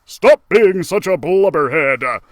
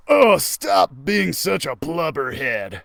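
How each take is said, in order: First: A louder, gruff-ish Max scolding; Max Musclepaw. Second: Slow, ordinary voice for Max; a misplaced character voice; wrong voice. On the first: Max scolding Geronimo, louder corrected voice. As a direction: scold him like the bossy leader. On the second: Reader's wrong voice for Max scolding Geronimo. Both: Acted. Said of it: "I did the wrong voice".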